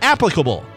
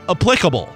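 First: The stress falls on the first syllable. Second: The stress falls on the second syllable. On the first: The speaker calls it right. "It's applicable" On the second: The speaker calls it wrong. "not applicable"

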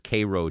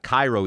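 First: It uses the pronunciation for the Georgia town. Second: It uses the pronunciation for the Egyptian city. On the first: It names the town in Georgia. "Cairo, Georgia" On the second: It names the city in Egypt. "Not Cairo, Egypt"

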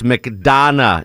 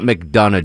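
First: The middle syllable sounds like 'don'. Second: The middle syllable sounds like 'dun'. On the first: The speaker calls it right. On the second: The speaker calls it wrong. "not D-U-N"

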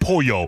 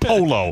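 First: The double L sounds like a Y. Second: The double L sounds like an L. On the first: This is the Mexican way of saying it. "When I'm in Mexico, I'll call it Pollo" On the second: This is the American way of saying it. "In America, it's Polo"

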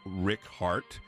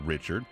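First: The middle consonant is a hard K sound. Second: The middle consonant is a soft CH sound. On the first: This is the old form of the name. "in Old French, Richard takes a harder CH sound than the modern one" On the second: This is the modern form of the name. "as opposed to Richard"

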